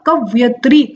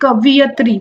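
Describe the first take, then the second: First: The word is pronounced ka-va-yi-tri. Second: The word is pronounced ka-vi-ya-tri. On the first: The speaker calls it right. "सही उच्चारण इसका क्या होगा" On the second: The speaker calls it wrong. "ना कि"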